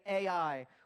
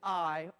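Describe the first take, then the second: First: It is said as two separate letter names. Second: It is said as one syllable, like 'eye'. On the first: "pronounce it like artificial intelligence and say A I" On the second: "pronounce it the right way, which is I"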